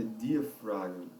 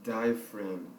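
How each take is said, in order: First: Diaphragm guessed as dee-ah-FRAH-jee, Portuguese-style; risky guess at the word. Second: Diaphragm as DYE-uh-fram, silent g; corrected pronunciation. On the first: Teacher guessing the English word before checking, Portuguese-style reading. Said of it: "Vou arriscar aqui". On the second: Teacher echoing the dictionary app, corrected English sound. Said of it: "Veja, tá vendo? Nada a ver". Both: Shown as a demonstration.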